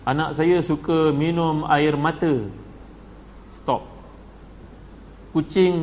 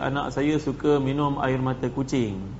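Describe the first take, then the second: First: There is a break right after 'mata'. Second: It runs on without a break after 'mata'. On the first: The child drinks tears. The speaker calls it wrong. "baca ayat yang tertulis ni secara salah" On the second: The child drinks a kind of herbal drink. The speaker calls it right. "Yang sebenarnya dia kena baca"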